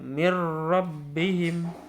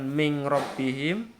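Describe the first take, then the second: First: The n merges fully into the following r. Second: The n becomes a nasal ng before r. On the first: The speaker calls it right. "Ya, mir rabbihim" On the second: The speaker calls it wrong. "Bukan ming rabbihim"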